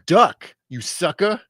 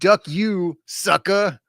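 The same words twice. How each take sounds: First: The pause comes after the word duck. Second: The pause comes after the word you. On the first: The speaker calls it right. "The comma is after duck, not after you" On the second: The speaker calls it wrong. "it's not like duck you sucker, like uh, some sort of censored swear"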